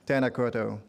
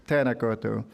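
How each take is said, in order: Both takes have the same delivery.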